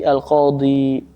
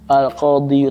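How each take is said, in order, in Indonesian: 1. Kata ini berakhir dengan bunyi 'ee' panjang biasa. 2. Kata ini berakhir dengan bunyi 'yu' yang ditambahkan. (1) "tapi al-qadhi" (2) "Jadi enggak dibaca al-qadhiyu"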